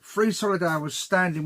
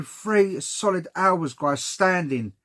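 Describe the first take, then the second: First: Said in the usual way. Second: Slow, each word of Three solid hours leaned on; slow emphatic complaint. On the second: Real, not acted. Griping to viewers about the wait, slow and emphatic.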